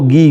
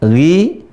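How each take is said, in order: First: The consonant is a plain hard g sound. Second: The consonant is a rough gargled throat sound. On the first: The speaker calls it wrong. "bukan go, gi, gu" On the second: The speaker calls it right. "Tapi gha, ghi, ghu ... Ada suara gar-garah"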